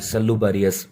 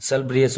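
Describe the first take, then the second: First: सल्लू बरियस split into सल्लू and बरियस, as a memory trick; trick pronunciation. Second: सल ब्रियस said as two tight syllable groups, ब्रियस without a vowel after ब; actual pronunciation. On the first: Teacher shows students the memory-trick form सल्लू बरियस. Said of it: "मैंने ऐसे, ऐसे trick बना दी कि जो सल्लू है". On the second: Teacher corrects to the actual pronunciation सल ब्रियस. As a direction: give the real form सल ब्रियस, no extra vowel. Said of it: "उसका एक्चुअल प्रोनंसिएशन तो दोस्तों सल ब्र". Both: Shown as a demonstration.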